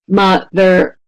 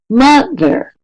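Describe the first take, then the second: First: Both syllables are said on the same flat pitch. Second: The first syllable is longer, louder and higher. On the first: The speaker calls it wrong. "We don't say mother, mother, right? It's not at the same pitch" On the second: The speaker calls it right. "It's mother, right? It jumps up slightly"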